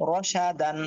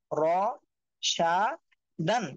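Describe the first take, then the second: First: রসা দান run together as one word; joined-up reading. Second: র, সা, দান one by one with clear gaps; broken-up syllables. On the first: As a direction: read রসা দান straight through without gaps. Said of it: "reading করবেন". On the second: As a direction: pause after each of র, সা and দান. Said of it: "একটা একটা করে পড়বেন". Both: Shown as a demonstration.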